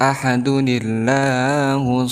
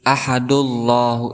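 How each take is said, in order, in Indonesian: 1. Bunyi n dengan vokal i menghubungkan kedua kata. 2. Kedua kata menyambung tanpa bunyi n. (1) "Maka dibacanya ahadunillah" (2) "ahadullahu itu salah"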